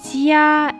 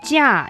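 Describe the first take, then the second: First: The pitch stays high and level throughout. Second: The pitch falls sharply from high to low. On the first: It is a different word. "the first tone. It's flat" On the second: It means price. "the fourth tone, goes down"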